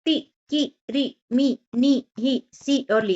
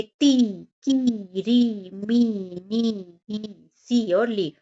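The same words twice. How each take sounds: First: Higher-pitched ती, की, री, each i cut short; quick, short i in ती, की, री, मी; short vowels. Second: ती, की, री with each i drawn out; slow, lengthened i in ती, की, री, मी; long vowels. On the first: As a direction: say each from ती to ली as a brief separate syllable. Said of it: "छोटी की मात्रा को जल्दी से बोलते हैं". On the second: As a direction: hold every vowel from ती to ली long. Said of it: "लंबे स्वर में बोलते हैं". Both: Shown as a demonstration.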